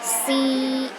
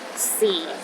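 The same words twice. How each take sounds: First: The pitch stays high and level. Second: The pitch is at the very bottom. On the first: "The first tone is high and steady" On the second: "the lowest tone"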